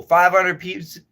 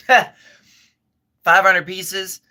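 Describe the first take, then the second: First: "Five hundred piece-" said through a mouthful; "Five hundred piece-" mumbled round food; mouth full. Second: Laughing through the words; slow, laughing repeat. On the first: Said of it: "Don't talk with your mouth full". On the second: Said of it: "excuse me". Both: Real, not acted.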